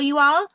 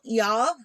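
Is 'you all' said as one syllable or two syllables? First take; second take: two syllables; one syllable. First: 'You all' is said as two full syllables. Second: 'Y'all' is said as one contracted syllable. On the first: "I might be saying fall you all" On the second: "I can't seem to say y'all"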